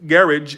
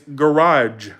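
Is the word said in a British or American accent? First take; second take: British; American. First: It is said with a British pronunciation. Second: It is said with an American pronunciation. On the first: The speaker calls it wrong. "They say garage. It's not garage" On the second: The speaker calls it right. "It's garage"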